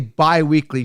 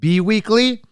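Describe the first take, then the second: First: The first syllable sounds like by. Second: The first syllable sounds like bee. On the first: The speaker calls it right. "When you say bi-weekly" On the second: The speaker calls it wrong. "do you say B-weekly? You don't"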